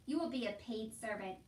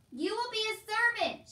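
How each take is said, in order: First: Said in the usual way. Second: High, loud, sustained shout; emphatic shout. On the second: A narrator's reading. Soldier repeating it for hard-of-hearing Meg, shouting. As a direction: shout it so it sinks in. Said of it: "shouted the soldier".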